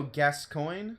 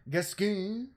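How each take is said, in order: First: Gascoigne said as "gas-coin"; first pronunciation guess. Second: Gascoigne with a drawn-out, higher second syllable; alternate pronunciation guess. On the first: Streamer unsure of the boss's name, trying Gascoigne as "gas-coin". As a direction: say Gascoigne with a clear "coin" ending, questioning. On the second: Streamer unsure of the boss's name, trying Gascoigne another way, ending stretched. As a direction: stretch the end of Gascoigne, unlike "gas-coin". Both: Shown as a demonstration. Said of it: "I don't know how to say it".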